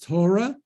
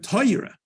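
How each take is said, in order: First: The first vowel is a plain o sound. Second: The first vowel is an oi sound. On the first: "you often hear it pronounced as Torah" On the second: "the O gets an oi sound to it"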